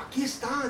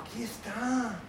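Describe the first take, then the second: First: Aquí está a bit higher, lightly Mexican; Mexican accent again. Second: Put-on slight Mexican accent on aquí está. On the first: Retold or imitated. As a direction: repeat it with a hint of Mexican. (un toque de acento mexicano) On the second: (acento mexicano ligero) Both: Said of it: "me ha salido acento mexicano".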